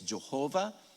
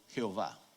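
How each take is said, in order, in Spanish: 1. El nombre se pronuncia como en inglés. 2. El nombre se pronuncia como en español. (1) "De ahí pasa al inglés" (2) "de ahí pasa al español"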